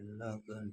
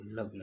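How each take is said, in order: First: लगन with a vowel between g and n, la-gan; separate consonants. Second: लग्न with g and n joined, lag-na; joined consonant cluster. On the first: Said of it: "खड़ी पाई को हटाकर शब्द का संयुक्त रूप". (लगन को "ल-गन" अलग बोलें) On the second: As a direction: say लग्न as lag-na, no vowel inside gn. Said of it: "लगन को लग्न लिखा है". (लग्न को संयुक्त "लग्-न" बोलें) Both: Shown as a demonstration.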